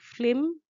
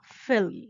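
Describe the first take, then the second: First: The L sound comes before the vowel. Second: The L sound comes after the vowel. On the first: The speaker calls it wrong. "they make it sound like flim" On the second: The speaker calls it right. "which should be film"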